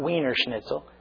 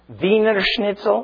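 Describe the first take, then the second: First: Wiener begins with a W sound. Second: Wiener begins with a V sound. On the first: The speaker calls it wrong. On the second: The speaker calls it right. "it's a German W"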